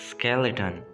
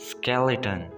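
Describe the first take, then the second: The two takes are said the same way.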